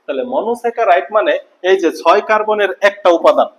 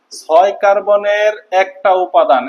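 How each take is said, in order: First: Said in the usual way. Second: Slow, with কার্বনের pressed hard; slow emphasis. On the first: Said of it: "teacher defines monosaccharide". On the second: Shown as a demonstration. Teacher to students repeating the definition, slow and stressed. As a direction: spell out ছয় কার্বনের word by word. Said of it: "teacher repeats definition slowly".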